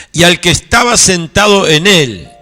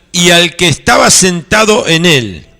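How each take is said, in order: The two takes are said the same way.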